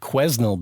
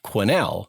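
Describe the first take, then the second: First: An S sound is heard in the middle. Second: The S in the middle is silent. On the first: The speaker calls it wrong. "somebody phoned at two in the morning to complain that I had pronounced it wrong" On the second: The speaker calls it right. "There's an S in there. It's it's a weird spelling, but it's pronounced Quesnel"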